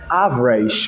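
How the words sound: The middle consonant is an 'sh' sound. "he said average"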